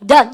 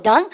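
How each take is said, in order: First: "done" dropped at the end as a statement; falling answer tune. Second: "done" lifted at the end to ask; questioning rise. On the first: Diner answering that they have finished, falling tune. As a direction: land "done" firmly downward. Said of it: "다 했다 해보세요". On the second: Teacher showing the one-word question, rising tune. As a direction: turn "done" upward into a question. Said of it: "다 하셨어요?". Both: Shown as a demonstration.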